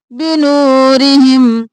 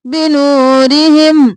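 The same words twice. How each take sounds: First: بنورہم with the final meem swallowed; بنورہم said carelessly; wrong merged meem. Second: بنورہم with the final meem said clearly and heavy; بنورہم, meem fully voiced. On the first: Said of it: "ہم نہیں کرنا". (بنورہم میں میم دبا کر، غلط) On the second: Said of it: "ظاہر کر کے پڑھیں گے". (بنورہم میم کے اظہار کے ساتھ) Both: Shown as a demonstration.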